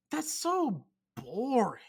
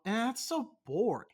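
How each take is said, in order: First: Slow, breathy whispered "so boring". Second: Said in the usual way. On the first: Acted. Repeating his complaint about chain restaurants, whispered.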